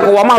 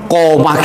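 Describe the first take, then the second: First: The word keeps a w sound between vowels. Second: The word merges into one long vowel, no w. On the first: The speaker calls it wrong. "tidak boleh dibaca kowama" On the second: The speaker calls it right. "harus dibaca koma"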